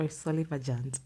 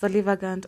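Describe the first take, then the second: First: Solivagant with a soft g, like j. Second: Solivagant with a hard g, as in go. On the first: Podcaster unsure of the new word, solivagant with soft g. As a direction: say solivagant as soli-va-jant. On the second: Podcaster introducing new vocabulary, solivagant with hard g. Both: Shown as a demonstration. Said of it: "I don't know".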